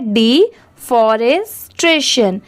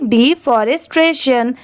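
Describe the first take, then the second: First: The word is said slowly, in separate parts. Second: The word is said quickly, in one go. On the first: "इसे ऐसे पढ़ना है" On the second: "इसे speed में पढ़ेंगे"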